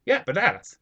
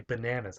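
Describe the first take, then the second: First: "bananas" higher and louder, with open "ah"; Hispanic accent. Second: "bananas" softer, with standard American short "a"; correcting pronunciation. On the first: Insisting to fiancée on own version, Hispanic accent. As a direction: insist on "bananas" as ba-NAH-nas, Hispanic-style. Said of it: "I'm like". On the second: Fiancée instructing the speaker, standard American pronunciation. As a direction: say "bananas" as buh-NAN-uhs. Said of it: "you have to say bananas". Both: Retold or imitated.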